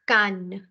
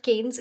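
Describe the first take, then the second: First: Cannes as "kahn"; correct French pronunciation. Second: Cannes misread as "kaynz"; wrong pronunciation. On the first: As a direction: say Cannes with an "ah" and silent S. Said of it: "it's Cannes". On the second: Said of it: "It's actually not". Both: Shown as a demonstration.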